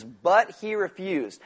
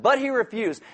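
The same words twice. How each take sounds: First: "But he refused" read slowly, leaning hard on "But"; slow emphatic reading. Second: "But he refused" repeated higher, with a firm push on "But"; stressed repeat. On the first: Preacher telling the congregation to circle it, slow stressed read. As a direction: savor every word, stress "But". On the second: Preacher repeating the verse for emphasis, stress on "But". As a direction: punch "But" and drop the end. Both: Shown as a demonstration. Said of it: "you should circle that".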